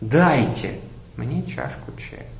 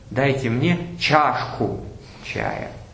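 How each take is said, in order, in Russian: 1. Главное ударение несёт слово дайте. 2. Главное ударение несёт слово чашку. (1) "Попробуем поставить ударение на всех словах по очереди" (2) "Я хочу чаю пить в чашке"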